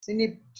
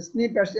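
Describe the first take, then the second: First: স্নিপড said as snipd, hesitant first guess; স্নিপড tentatively pronounced snipd, before checking; unsure guess at the word. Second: স্নিপ্যাডস said as snip-ads, two syllables ending in s; স্নিপ্যাডস repeated after the recorded voice as snippets; corrected pronunciation. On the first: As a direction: try স্নিপড as one clipped syllable, snipd. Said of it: "এটা উচ্চারণটা কি হবে?". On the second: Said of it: "একটা পি উচ্চারণ হওয়ার কথা". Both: Shown as a demonstration.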